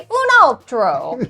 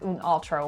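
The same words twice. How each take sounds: First: The phrase is said with strong pitch movement. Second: The phrase is said with little pitch movement. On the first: The speaker calls it right. "you need to say un altro. So the inflection is a really important part" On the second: The speaker calls it wrong. "I was trying to practice my Italian"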